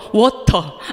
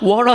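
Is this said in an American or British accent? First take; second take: British; American. First: The t is pronounced as a crisp, clear t. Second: The t is flapped, sounding like a soft d. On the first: The speaker calls it right. "나는 영국식 영어가 마음에 들어" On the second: The speaker calls it wrong. "미국식 영어가 너무 어려운 거예요. 발음이"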